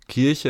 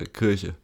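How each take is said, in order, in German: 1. Der erste Vokal ist ein klares, normales i. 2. Der erste Vokal klingt fast wie ein ö. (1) "es ist ja nicht Kirche" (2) "dass wir das I immer nicht richtig sagen ... so immer so ein fast schon Ö"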